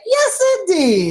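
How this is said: It sounds happily surprised.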